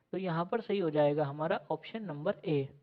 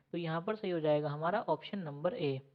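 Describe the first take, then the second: The two takes are said the same way.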